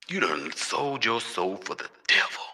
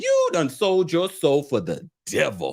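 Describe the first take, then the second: First: It is said in a put-on devil voice. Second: It is said in his normal voice.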